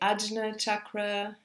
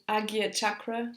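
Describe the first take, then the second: First: The name is said with a 'jn' sound. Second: The name is said with a 'gy' sound. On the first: This is how some other people say it. "some people say Ajna chakra" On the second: This is the form the speaker learned. "I'll call it Agya chakra, which is how I've learned it"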